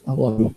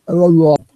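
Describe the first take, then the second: First: Said in the usual way. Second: Higher and louder, gushing. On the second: Real, not acted. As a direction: belt out the love. Gushing thanks to viewers.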